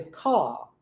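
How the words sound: The final R is silent, ending open. "No inglês britânico, ... aberto"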